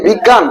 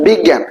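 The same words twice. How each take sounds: First: বিজ্ঞান with an open "aa", as "big-gaan"; wrong, spelling-style vowel. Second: বিজ্ঞান said "big-gæn", with the vowel of English "cat"; standard pronunciation. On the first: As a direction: say বিজ্ঞান as "biggaan", with a plain long "aa". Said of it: "প্রমিত উচ্চারণ শিখছো". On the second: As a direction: say বিজ্ঞান as "biggæn", the second vowel fronted. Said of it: "তাহলে প্রমিত উচ্চারণ". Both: Shown as a demonstration.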